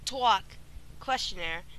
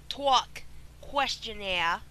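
First: It is said in the speaker's plain accent. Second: It is said in a put-on Boston accent.

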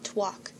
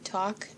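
First: There is a w sound after the t. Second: There is no w sound after the t. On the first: "I call it twalk" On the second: "other people call it, like, talk"

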